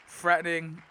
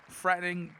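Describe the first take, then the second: No difference in how they are said.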